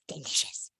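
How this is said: It is said in an Elmo voice.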